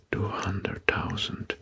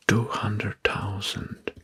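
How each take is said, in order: Both takes have the same delivery.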